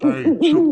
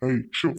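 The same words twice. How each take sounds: First: High, loud shout to chase it off; loud shoo. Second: Said in the usual way. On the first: Acted. Uncle shooing the owl off the tree, loud high shout. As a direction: yell to scare the bird away.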